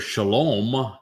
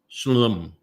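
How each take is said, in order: First: The O vowel sound is clearly pronounced. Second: The O vowel sound is dropped entirely. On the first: The speaker calls it right. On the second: The speaker calls it wrong.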